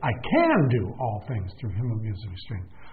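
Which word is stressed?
can. The word "can" carries the emphasis.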